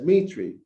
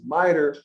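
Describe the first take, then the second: First: The word ends in an 'ee' sound. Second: The word ends in an 'er' sound. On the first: This is how another religious group says it. "That Hebrew Israelite organization pronounces mitre as mitri" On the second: This is how one religious group says it. "the Catholics pronounce it mitre"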